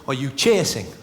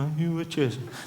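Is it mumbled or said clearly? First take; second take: clearly; mumbled. First: It is said clearly and smoothly. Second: It is mumbled and halting.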